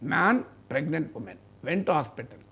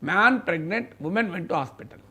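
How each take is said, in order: First: There is a pause after the word 'man'. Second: There is a pause after the word 'pregnant'. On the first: A man and a pregnant woman went to hospital. "ఆ gap ఇవ్వడాన్ని man తర్వాత ఇవ్వ ఇస్తే ఒక meaning వచ్చింది" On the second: The man is pregnant and the woman went to hospital. "మీరు ఈ కామాను తీసి pregnant తర్వాత పెట్టండి"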